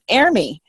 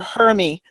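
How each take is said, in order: First: The word starts without an H sound. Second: The word starts with an H sound. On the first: This is the original French pronunciation. "it's French. It's er- Ermi. That's how it's supposed to be" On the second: This is how weather forecasters say it. "But the the meteorologists call it er- Hermi"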